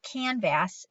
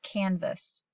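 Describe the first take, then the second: First: The second syllable has a full 'a' vowel. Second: The second syllable has a reduced 'uh' vowel. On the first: The speaker calls it wrong. "it's not canvas" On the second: The speaker calls it right. "saying its third sound there"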